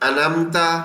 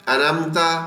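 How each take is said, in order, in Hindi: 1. बीच की "ain" ध्वनि छोड़ दी जाती है। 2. बीच की "ain" ध्वनि छोड़ दी जाती है।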